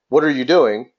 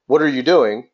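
First: The question sounds casual and friendly. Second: The question sounds casual and friendly.

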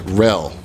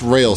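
First: The vowel sounds like in fell. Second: The vowel sounds like in rail. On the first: The speaker calls it right. "Like fell, but rel" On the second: The speaker calls it wrong. "Not rail state"

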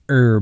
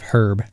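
First: The word starts without an h sound. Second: The word starts with an h sound. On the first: The speaker calls it right. "I think it's pronounced herb" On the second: The speaker calls it wrong. "instead of herb"

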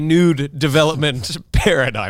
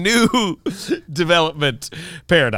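First: A d sound joins the first word. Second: The first word ends cleanly without a d. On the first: The speaker calls it wrong. "Not a nude development paradigm" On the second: The speaker calls it right. "That is correct"

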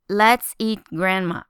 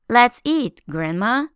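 First: There is no pause after 'eat'. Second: There is a pause after 'eat'.

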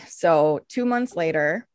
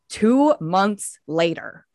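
First: It is said in a plain, matter-of-fact way. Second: It is said in a slow, dramatic way.

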